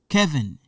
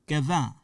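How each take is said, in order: First: The name is pronounced with English sounds. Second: The name is pronounced with French sounds. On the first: "This part, English part" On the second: "In French, the pronunciation is different. In French, we say"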